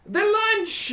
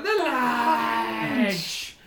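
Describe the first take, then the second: First: Very high leader's call; kobold boss. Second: Chanted, long droning mob echo; crowd chant. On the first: Kobold boss calls to his crowd, high proclamation. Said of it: "and he says". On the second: Kobold crowd echoes the boss, drawn-out chant. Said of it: "And they all". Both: Acted.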